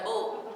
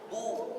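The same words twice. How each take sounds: First: The vowel is made with spread, unrounded lips. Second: The vowel is made with rounded, pushed lips. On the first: The speaker calls it wrong. "Bukan bu" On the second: The speaker calls it right. "Harus monyong"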